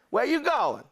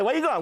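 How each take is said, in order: First: It is said in a slow, relaxed New Orleans accent. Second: It is said in a brash New York accent.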